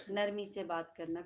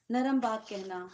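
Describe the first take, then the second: First: Soft and slow. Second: Said in the usual way. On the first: Shown as a demonstration.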